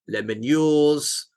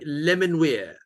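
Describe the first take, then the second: First: The name ends with a 'yours' sound. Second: The name ends with a single 'weir' sound. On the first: The speaker calls it wrong. "it's definitely not that" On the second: The speaker calls it right. "is how I pronounce it"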